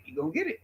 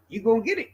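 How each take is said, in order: First: Much softer, under the breath; quiet menace. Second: Said in the usual way. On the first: Acted. Repeated threat, second dropped low.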